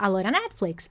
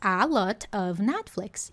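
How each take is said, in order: First: The phrase is reduced, sounding like 'a lora'. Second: Every word of the phrase is pronounced fully.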